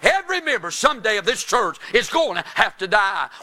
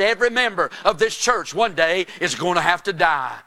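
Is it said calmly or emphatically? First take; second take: emphatically; calmly. First: It is said with more force and emphasis. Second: It is said in a calm, plain way.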